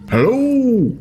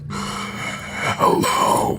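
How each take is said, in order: First: It is said in a deep baritone voice. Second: It is said in a weak, breathy voice.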